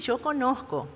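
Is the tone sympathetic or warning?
sympathetic. It sounds gentle and understanding. I understand how hard you are trying. "yo conozco porque sé lo que estás haciendo"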